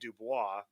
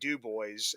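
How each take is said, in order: First: The name is said the French-style way. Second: The name is said the local anglicized way. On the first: This is how the name is properly said. The speaker calls it right. "it should be Dubois" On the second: This is how locals say the name. The speaker calls it wrong. "up here in Pennsylvania we say Du Bois"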